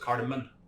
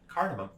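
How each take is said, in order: First: The word ends with an N sound. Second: The word ends with an M sound. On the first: The speaker calls it wrong. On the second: The speaker calls it right.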